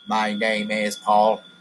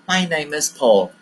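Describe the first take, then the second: First: The voice stays flat on one pitch. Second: The voice moves up and down in pitch. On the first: The speaker calls it wrong. "I don't say" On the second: The speaker calls it right. "My voice is going up and down"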